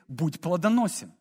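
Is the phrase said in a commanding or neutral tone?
neutral. It is said in a plain, neutral tone.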